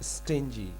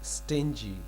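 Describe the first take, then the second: First: The middle consonant is a soft j sound. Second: The middle consonant is a soft j sound.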